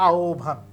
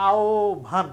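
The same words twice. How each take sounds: First: আওভান repeated lower and falling, aw-bhan as one word; pronunciation of আহ্বান. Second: আওভান said slowly with a rising tune, the হ্ব sounding as ও plus ভ; pronunciation of আহ্বান. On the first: Teacher repeating আহ্বান's spoken form to close it off, falling. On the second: Teacher showing students how আহ্বান is said, rising. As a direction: spell out আওভান syllable by syllable, ending up. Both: Shown as a demonstration. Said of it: "তাহলে উচ্চারণ হবে".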